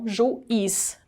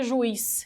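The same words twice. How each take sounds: First: The u and i fall in separate syllables. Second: The u and i blend into one syllable. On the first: The speaker calls it right. "e não juiz" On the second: The speaker calls it wrong. "Se eu não separasse, seria juiz"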